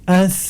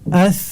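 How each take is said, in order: First: The consonant is soft with breath flowing out. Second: The same.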